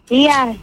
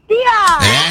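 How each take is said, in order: First: It is said with little energy. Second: It is said loudly, with lots of energy.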